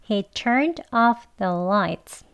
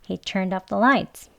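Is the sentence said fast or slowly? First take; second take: slowly; fast. First: The sentence is spoken slowly. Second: The sentence is spoken fast with linked words. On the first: "천천히 같이 해볼게요" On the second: "빨리 더 해보겠습니다"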